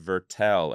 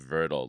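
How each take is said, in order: First: The name is said with a sharp, crisp sound. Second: The name is said with a softer, rounder sound. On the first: "the sharpness of Vertel" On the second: "as opposed to Vertel"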